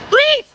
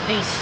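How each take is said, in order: First: It is said very loudly. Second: It is said too softly.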